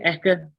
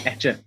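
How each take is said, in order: First: The middle consonant is a 'k' sound. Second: The middle consonant is a 'ch' sound. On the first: The speaker calls it right. "is it Eka?" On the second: The speaker calls it wrong. "I keep saying it wrong. I always say Etcher"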